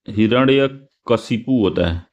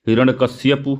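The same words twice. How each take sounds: First: हिरण्यकशिपु said slowly, each syllable clear, ending "-शिपु"; correct form, slowly. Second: हिरण्यकश्यपु read as written, ending "-कश्यपु" with y; wrong form read out. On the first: Teacher correcting students, slow careful हिरण्यकशिपु. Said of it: "तो हिरण्यकशिपु होता है वो". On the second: Teacher reads the misspelled option to students, plainly. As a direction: read हिरण्यकश्यपु with the "-श्य-" cluster. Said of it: "ये सही नहीं लिखा है". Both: Shown as a demonstration.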